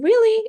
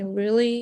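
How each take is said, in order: First: It sounds excited. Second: It sounds sad.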